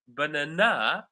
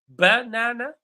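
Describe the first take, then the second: First: The stress is on the third syllable. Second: The stress is on the first syllable. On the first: "third syllable" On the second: "Do you think the stress falls on the first syllable"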